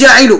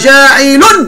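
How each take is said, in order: First: The word ends in a short vowel without n. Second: The word ends in a vowel followed by n. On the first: The speaker calls it wrong. "مش جاعل" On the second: The speaker calls it right. "رد بالك صحي، جاعل"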